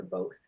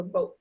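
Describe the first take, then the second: First: Said in the usual way. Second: "boat" for "both", closed on a t; "boat" as a dialect "both". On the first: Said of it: "boat for both". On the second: Shown as a demonstration. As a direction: end "boat" on t, no th. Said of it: "might say boat for both".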